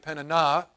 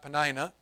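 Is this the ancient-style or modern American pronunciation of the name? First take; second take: ancient-style; modern American. First: The name has an older, non-American pronunciation. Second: The name has the familiar modern American pronunciation. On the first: This is how it was probably said in ancient times. "probably Peninnah" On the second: This is how Americans say it today. "probably not Penina, as we Americans would say it"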